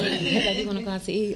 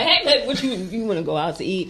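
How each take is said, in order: First: It is said in a soft, gentle way. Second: It is said in a tough, hard way.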